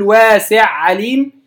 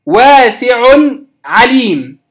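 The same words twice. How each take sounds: First: واسع عليم with the ع merged; the forbidden merge of واسع عليم; wrong merging. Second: واسع عليم with the نون of tanween kept clear; clear pronunciation. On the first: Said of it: "لا أقول". (قراءة خاطئة بالإدغام) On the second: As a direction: keep each ع distinct. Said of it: "وإنما الإظهار". (قراءة بالإظهار) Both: Shown as a demonstration.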